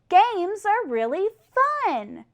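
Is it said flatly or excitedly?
excitedly. It is said with excitement and energy.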